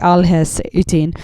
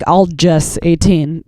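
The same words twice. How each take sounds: First: The name is said with a silent J. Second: The name is said with a spoken J. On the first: "it's probably" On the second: "That's the American way"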